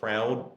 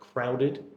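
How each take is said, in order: First: The final syllable is dropped. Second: The final syllable is clearly pronounced. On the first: The speaker calls it wrong. "there is a bit of a habit among some people to say kind of crowd" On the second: The speaker calls it right. "it's actually got the extra sound"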